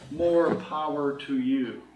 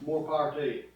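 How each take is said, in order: First: It is said slowly and carefully. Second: It is said at natural conversational speed.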